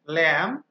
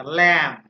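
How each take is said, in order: First: ল্যাম্প again as lem, b stays silent; ল্যাম্প rising, said lem without b. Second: ল্যাম্প said as lem, no b sound; ল্যাম্প with the b dropped, like lem; silent b. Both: Shown as a demonstration. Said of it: "বি উচ্চারিত হবে না".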